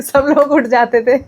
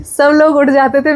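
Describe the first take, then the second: First: Said in the usual way. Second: Playful emphatic repeat; amused emphasis. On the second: Retold or imitated.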